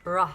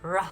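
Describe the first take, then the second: The two takes are said the same way.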